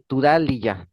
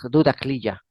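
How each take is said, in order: First: The name begins with a voiceless T sound. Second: The name begins with a voiced D sound. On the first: This is the form found in a recent online source. "Tudar, con T" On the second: This is the form found in older books. "en los libros que tengo de mil novecientos cincuenta y siete dice"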